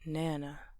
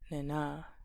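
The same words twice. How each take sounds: First: The stress is on the first syllable. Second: The stress is on the second syllable. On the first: The speaker calls it right. "with the first syllable being the stressed one" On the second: The speaker calls it wrong. "if the second one was stressed, it would sound kind of odd"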